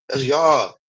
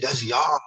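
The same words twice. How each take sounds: First: Y'all falling, flat and final; falling tune. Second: Y'all rising, like a pointed question; rising tune. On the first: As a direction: drop the end on y'all, settled. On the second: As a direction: lift the end on y'all. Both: Real, not acted.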